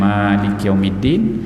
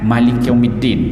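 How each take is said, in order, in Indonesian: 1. Vokal pertama dalam Malik itu panjang. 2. Vokal pertama dalam Malik itu pendek. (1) "bacaan yang yang biasa je kita baca"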